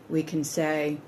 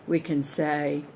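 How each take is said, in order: Both takes have the same delivery.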